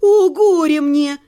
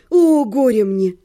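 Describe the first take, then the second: First: Slow, forceful mock wail; crying out. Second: Drawn-out, lower-pitched woe; mock lament. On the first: Wife lamenting with new force at husband's answer, crying out. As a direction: cry woe with renewed force. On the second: Wife bewailing her ruined life to her husband, mock lament. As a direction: lament theatrically, stretching the words. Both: A narrator's reading. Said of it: "вскричала я с новой силой".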